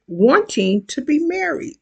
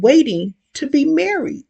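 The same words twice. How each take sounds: First: Breathy whispered echo. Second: Said in the usual way. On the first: A narrator's reading. Repeated phrase, second take whispered.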